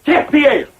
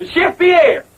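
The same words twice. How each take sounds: First: Grand mock-French announcement; fake French accent. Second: Higher-pitched mock-French summons; insistent French-accented call. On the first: Host introducing the chef to guests, fake French accent. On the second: Host calling the absent chef, insistent fake French accent. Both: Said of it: "I forgot my French accent".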